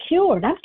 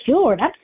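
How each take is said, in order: Both takes have the same delivery.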